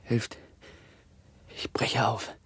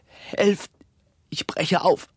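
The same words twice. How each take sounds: First: Faint, half-whispered cry for help; weak dying whisper; fading plea. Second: High, strained cry for help; dying victim's breaking cry; desperate plea. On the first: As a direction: let the plea die away softly. Same plea, fading away. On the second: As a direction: gasp it out in terror, pitch leaping. Dying plague victim calls for help. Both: Acted.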